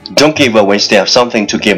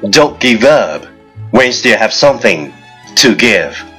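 First: It is said very fast, in one breath. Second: It is said at a normal speed.

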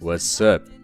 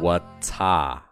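First: The vowel in 'up' is like Chinese 饿. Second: The vowel in 'up' is not like Chinese 饿. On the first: The speaker calls it right. "而是what's up，是肚子饿的饿的音" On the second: The speaker calls it wrong. "千万不要读成what's up"

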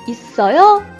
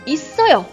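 First: The pitch rises at the end. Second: The pitch falls at the end. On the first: It asks whether there is one. "有吗？" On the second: It answers that there is one. "有的。"

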